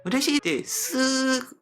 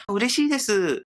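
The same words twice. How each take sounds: First: 嬉しいです slow, with the final す held high and level; 嬉しいです drawn out, pitch held up; sustained Japanese intonation. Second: 嬉しいです high, falling at the end; 嬉しいです raised in pitch, unstretched; Japanese intonation. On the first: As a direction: stretch the end of 嬉しいです on one high note. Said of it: "と声がそのままなんですけども". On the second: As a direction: say 嬉しいです with ordinary Japanese melody. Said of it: "イントネーションが日本のままですね". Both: Shown as a demonstration.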